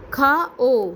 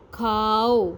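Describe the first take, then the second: First: کھا او said as two separate parts, کھا then a raised او; split into two sounds. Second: کھاؤ said as one smooth syllable with a falling end; blended word. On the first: Teacher to young pupils, slowly splitting کھا او apart. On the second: Teacher to young pupils, blending the parts into کھاؤ. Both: Shown as a demonstration. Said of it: "چلیے میرے ساتھ ان الفاظ کو پڑھیے".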